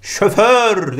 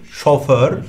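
First: ŞOFÖR as "şöför", drawn out; wrong pronunciation. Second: ŞOFÖR with o then ö; correct pronunciation. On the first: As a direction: say şoför with two ö sounds. (şoför yanlış, "şöför") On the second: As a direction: say şoför as şo-för. (şoför doğru, "şo-för") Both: Shown as a demonstration. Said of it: "değil".

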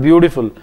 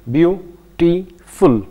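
First: Said in the usual way. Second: "beautiful" as beau... ti... ful, a gap after each; slow "beautiful" down into three separate syllables; split into parts. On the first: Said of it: "there is another word". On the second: Shown as a demonstration. Teacher showing three parts of a word, "beautiful" syllable by syllable. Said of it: "These are the three parts".

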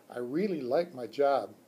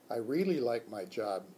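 First: Hamster squeak. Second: Lower, plain adult man's voice; teacher Mister E. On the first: Hamster answers the teacher, light squeak. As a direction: chirp it proudly as the pet. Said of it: "I squeaked". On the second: Teacher answers the hamster, lower man's voice. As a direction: say it as the tired teacher. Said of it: "Mister E said". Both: Acted.

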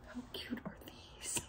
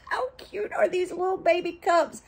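First: Hushed whisper; whispered gushing. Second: High cooing delight; high-pitched gushing. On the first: Showing viewers tiny cups, whispered gushing. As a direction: whisper it very softly in adoration. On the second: Showing viewers little baby cups, high-pitched gushing. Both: Real, not acted.

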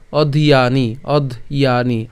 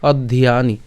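First: "অধিয়ানি" slowly split as odh, iya, ni; slow separated syllables in "অধিয়ানি"; broken into parts. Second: "অধিয়ানি" run together as oddhiyani; joined-up "অধিয়ানি", no breaks. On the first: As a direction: say "অধিয়ানি" piece by piece, stretched. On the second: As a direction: say "অধিয়ানি" as one connected word. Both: Shown as a demonstration. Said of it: "একসাথে উচ্চারণ করলে".

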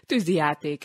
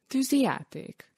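First: Said in the usual way. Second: Tűzijáték asked higher, with a wondering lift; the boy repeats Tűzijáték in curious disbelief; curious question. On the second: Acted. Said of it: "Nézett kíváncsi szemmel". (kíváncsi, csodálkozó kérdés)

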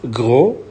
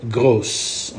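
First: Gros said as GROH, with no s sound; French gros, final s silent. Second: Gros said as GROSS, with the s sounded at the end; French grosse, final s pronounced; feminine grosse. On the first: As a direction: end Gros on the open o, no s. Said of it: "don't pronounce the S here". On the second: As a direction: finish gros with a clear s. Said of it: "you double the S, you put E". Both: Shown as a demonstration.

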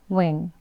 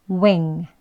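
First: "wing" clipped and softer; weak W word. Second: Full rounded "wing"; clear W word. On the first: Teacher showing learners the weak "wing", clipped and soft. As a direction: say "wing" short and light. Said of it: "약하게 또 발음하면". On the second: Teacher modelling "wing" for learners, full and clear. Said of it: "한 번씩 해볼게요". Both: Shown as a demonstration.

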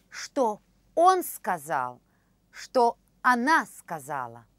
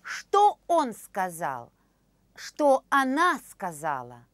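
The two takes are said the same way.

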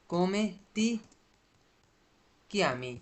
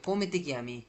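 First: "Come ti", long pause, then "chiami"; broken into parts. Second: Said in the usual way. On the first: Shown as a demonstration. Teacher splits phrase for learners. ("Come ti" বলে থেমে, তারপর "chiami")

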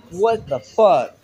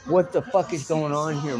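First: Drawn-out, louder stunned what the fuck; stunned disbelief. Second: Said in the usual way. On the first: Real, not acted. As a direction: let it out slowly in shock, louder. Stunned at door opening.

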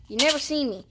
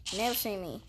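First: Said in the usual way. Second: Low, quiet gravelly-free Batman growl; hint of a Batman impression. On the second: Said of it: "I'm Batman".

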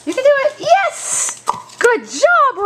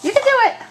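First: Squeaky praising a dog. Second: Pitched-up coaxing for the dog; high dog encouragement. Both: Real, not acted.

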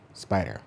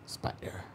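First: Said in the usual way. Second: Spider. breathed as a soft whisper. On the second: A narrator's reading. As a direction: drop spider. to a hush. Hippo and spider staring game.

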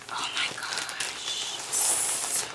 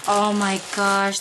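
First: Very slow, much softer whispered "oh my gosh"; real awestruck whisper; awed whisper. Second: Said in the usual way. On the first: Real, not acted. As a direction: breathe "oh my gosh" out in stunned awe. Awed at a generous gift.

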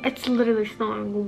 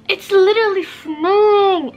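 First: Said in the usual way. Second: High, loud delighted cry; excited squeal. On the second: Real, not acted. Vlogger shrieking with joy at the first snow.

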